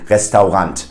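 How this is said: It is pronounced fully the German way. The speaker calls it wrong. "pronounce it in a German way"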